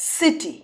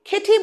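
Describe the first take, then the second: First: The word begins with an s sound. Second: The word begins with a k sound. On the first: The speaker calls it right. "আমরা কি বলি এটাকে? সিটি" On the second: The speaker calls it wrong. "আমরা কি এটাকে খেটি বলবো? না"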